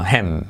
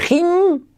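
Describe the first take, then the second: First: "him" grave, como "jem". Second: "him" agudo, con i larga y estirada. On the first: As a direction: di "him" con e abierta. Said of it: "sino him". ("him" bajo, con e española) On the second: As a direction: di "him" exagerando la i. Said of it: "No se dice him". ("him" como "jiim", alto) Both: Shown as a demonstration.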